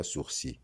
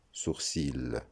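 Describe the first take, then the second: First: "sourcil" with a silent final L; correct pronunciation. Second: "sourcil" with the final L sounded; wrong pronunciation. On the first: Teacher giving the right form, correctly pronounced without L. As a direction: say "sourcil" as soor-SEE, rhyming with gentil. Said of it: "on dira". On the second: Teacher showing what not to say, mispronounced with final L. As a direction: say "sourcil" as soor-SEEL. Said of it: "On ne dira donc". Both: Shown as a demonstration.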